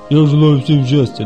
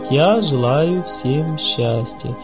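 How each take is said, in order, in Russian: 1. Фразу тараторят быстро. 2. Фразу произносят медленно и спокойно. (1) "не надо тараторить, как это" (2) "Мы должны спокойно говорить"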